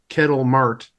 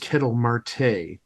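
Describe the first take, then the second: First: The surname is said as one syllable. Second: The surname is said as two syllables. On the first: The speaker calls it wrong. "he made a little error in pronouncing" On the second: The speaker calls it right. "the guy's name is Kettle Marte"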